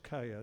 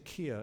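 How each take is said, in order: First: The name is pronounced like 'Kaya'. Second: The name is pronounced like 'Kia'. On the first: The speaker calls it right. "it's Kaya" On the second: The speaker calls it wrong. "I always say it wrong. I say Kia"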